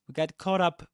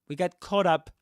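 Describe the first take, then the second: Both takes have the same delivery.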